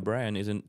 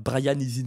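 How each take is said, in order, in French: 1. Il est prononcé avec un accent anglais natif. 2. Il est prononcé avec un fort accent français. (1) "c'était la honte d'avoir l'accent" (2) "tu te forçais à faire"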